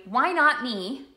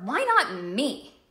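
First: "not" in "Why not me?" leaned on, drawn out slowly; stress on not. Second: "Why not me?" with a different word carrying weight, slow; a second slow take with shifted weight; other stress. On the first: Coach showing the weight on "not". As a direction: drag out the word "not" with a lift. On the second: Coach showing another way to stress it. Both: Shown as a demonstration. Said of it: "There's an emphasis, right?".

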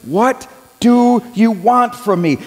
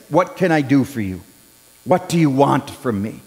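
First: What do you want from me? said slowly, each word weighted; deliberate, searching repeat; slow emphatic question. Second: Softer, lower, tender question; quietly voiced Jesus offering help; gentle Jesus. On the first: Acted. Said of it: "Jesus asks him". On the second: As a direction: ask it kindly and hushed. Jesus gently asks Bartimaeus.

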